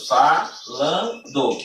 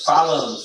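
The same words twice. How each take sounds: First: "falando" very slow, split fa-lan-do; syllable by syllable. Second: Said in the usual way. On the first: Shown as a demonstration. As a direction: break "falando" into three separate beats. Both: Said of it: "três sílabas".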